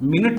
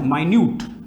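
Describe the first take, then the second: First: The first syllable sounds like 'min'. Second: The first syllable sounds like 'my'. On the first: It is the unit of time. The speaker calls it wrong. "मिनट नहीं है" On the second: It means very small. The speaker calls it right. "ये क्या है, माइन्यूट"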